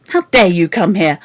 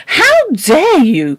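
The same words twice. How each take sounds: First: Said in the usual way. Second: High, loud, slow outraged cry; shaking with anger. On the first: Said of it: "she cried". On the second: Acted. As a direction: let the fury shake every word. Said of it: "cried Missus Biddle ... voice shook with angriness".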